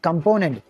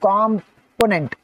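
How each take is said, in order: First: The stress is on the second syllable. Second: The stress is on the first syllable. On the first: The speaker calls it right. "Second syllable మీద stress పెడుతున్నాం" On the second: The speaker calls it wrong. "First దాని మీద మనకి normally stress పెడుతున్నాం"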